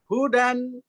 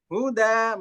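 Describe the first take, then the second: First: The word ends with an n sound. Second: The word ends with a long a vowel. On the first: The reading continues without a stop. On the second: The reader stops on this word.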